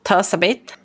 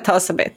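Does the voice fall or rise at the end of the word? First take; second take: rise; fall. First: The voice rises at the end, like a question. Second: The voice falls at the end, like a statement. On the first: The speaker is unsure whether the word is right. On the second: The speaker offers the word as an answer.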